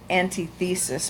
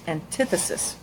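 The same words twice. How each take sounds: First: It is pronounced the way it looks. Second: It is pronounced in its accepted form. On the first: The speaker calls it wrong. "looks like antithesis" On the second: The speaker calls it right. "it's pronounced antithesis"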